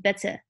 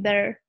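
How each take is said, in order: First: The t is a crisp, fully released t. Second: The t is a soft, quick tap. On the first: "instead of saying better" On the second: "like saying better"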